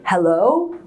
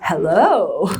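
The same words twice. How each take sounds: First: The pitch rises on the word. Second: The pitch rises and then falls. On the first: "it goes up" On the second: "which is the what's called the rise fall"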